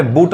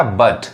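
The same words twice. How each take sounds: First: बूट with a long 'oo'; wrong vowel demo. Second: बट with a short 'uh'; taught 'a' sound. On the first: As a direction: say बूट like English 'boot'. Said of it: "बूट नहीं पढ़ाएगा". (बूट में लंबा 'ऊ' बोलें) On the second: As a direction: say बट as 'buht'. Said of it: "अ sound आएगा". (बट में छोटा 'अ' बोलें) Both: Shown as a demonstration.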